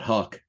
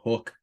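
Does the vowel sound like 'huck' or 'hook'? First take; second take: huck; hook. First: The vowel is like the one in 'duck'. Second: The vowel is like the one in 'book'. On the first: This is how the speaker personally says it. "I call it Huck" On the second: This is the supposedly official pronunciation. "supposed to be called Hook"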